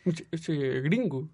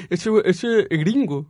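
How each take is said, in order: First: Slow, softer murmur; quiet aside. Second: Slow knowing voice; imitating passersby. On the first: Retold or imitated. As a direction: say it slowly under the breath. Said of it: "toda la gente cree que soy gringo". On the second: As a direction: drag it out slowly. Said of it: "la gente cree".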